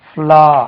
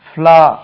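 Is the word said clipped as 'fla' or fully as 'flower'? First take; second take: clipped; clipped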